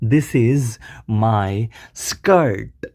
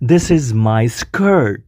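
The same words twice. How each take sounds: First: The sentence is spoken slowly and carefully. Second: The sentence is spoken quickly and smoothly.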